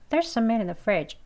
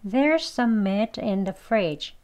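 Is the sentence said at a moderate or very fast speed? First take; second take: very fast; moderate. First: The sentence is said very quickly. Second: The sentence is said at a moderate pace. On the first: "아주 빨리 하면" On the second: "한번 더요"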